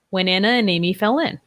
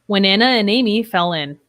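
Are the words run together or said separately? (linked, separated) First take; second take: linked; linked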